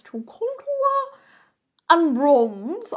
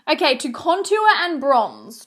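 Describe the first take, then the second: First: To contour sung up high and drawn out, and bronze punched; playful high singsong title; singsong announcement. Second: Said in the usual way. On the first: Shown as a demonstration. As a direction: announce it like a game show.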